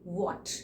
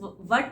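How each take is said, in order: First: The vowel is said with rounded lips. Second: The vowel is said with flat, unrounded lips. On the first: The speaker calls it right. "To रोल your lips" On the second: The speaker calls it wrong. "इस वट नहीं होता"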